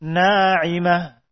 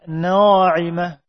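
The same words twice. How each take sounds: First: Na'imah with a light, open aa; thin alif. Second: Na'imah with a heavy, rounded first vowel, like "naw-imah"; wrongly thick alif. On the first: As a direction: keep the first long vowel of Na'imah thin, no rounding. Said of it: "dibaca tipis". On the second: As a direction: darken the long aa in na'imah to "aw". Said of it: "Tidak dibaca". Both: Shown as a demonstration.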